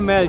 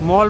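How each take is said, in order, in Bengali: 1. শব্দটি 'ya' স্বরধ্বনি দিয়ে বলা হয়, myal। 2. শব্দটি 'o' স্বরধ্বনি দিয়ে বলা হয়, mol। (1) "সবাই ম্যাল বলে বলছে তাই ম্যাল বলেই বলছি" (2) "মল বা ম্যাল যাই বলুন না কেন"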